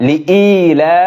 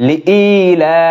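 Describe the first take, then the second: Both takes have the same delivery.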